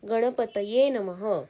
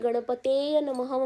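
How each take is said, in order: First: The first word ends with the sounds 'taye'. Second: The first word ends with the sounds 'teya'. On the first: The speaker calls it right. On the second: The speaker calls it wrong.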